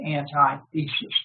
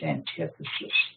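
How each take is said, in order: First: It starts with 'anti' followed by 'thesis'. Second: The stress falls on the second syllable, 'tith'. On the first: The speaker calls it wrong. "we don't say antithesis because somebody will think we're from Colgate" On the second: The speaker calls it right. "What we say is antithesis"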